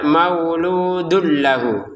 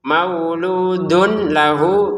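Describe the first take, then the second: First: The n merges into the l, without nasal hum. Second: An n sound is heard before lahu. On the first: The speaker calls it right. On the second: The speaker calls it wrong.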